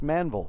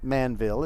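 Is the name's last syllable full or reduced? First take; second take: reduced; full. First: The last syllable is reduced, like 'anvil'. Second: The last syllable is a full 'ville'. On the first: The speaker calls it right. "it's Manville, as in anvil" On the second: The speaker calls it wrong. "It's not Manville"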